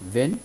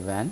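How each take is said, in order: First: وین with a closer e, "ven"; first variant of وین. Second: وین with an open "a", like "van"; second variant of وین. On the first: Teacher offering either pronunciation, وین said as "ven". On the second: Teacher offering either pronunciation, وین said as open "van". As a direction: say وین as "væn". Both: Shown as a demonstration. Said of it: "وین اور وین دونوں طور پہ تلفظ".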